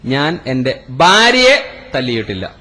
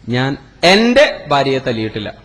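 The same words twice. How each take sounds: First: The third word carries the stress. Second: The second word carries the stress. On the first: Another person was hit instead. "ഉമ്മാനെയാണ് തല്ലിയത്" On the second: A different wife was hit. "എന്റെ ഭാര്യയല്ല ഞാൻ തല്ലിയത്, വേറെ ഭാര്യയാണ്"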